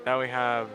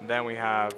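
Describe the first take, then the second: No difference in how they are said.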